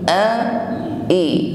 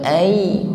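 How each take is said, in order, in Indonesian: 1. Vokalnya kuat dan dipisah dengan jelas. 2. Vokalnya lemah dan disambung meluncur. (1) "tetapi a, i" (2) "tidak boleh diucapkan dengan lemah atau nyeret"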